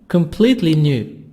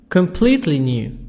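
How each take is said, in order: Both takes have the same delivery.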